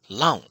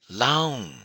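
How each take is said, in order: First: The vowel is short. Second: The syllable is said on a high pitch. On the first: "short vowel" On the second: "high tone"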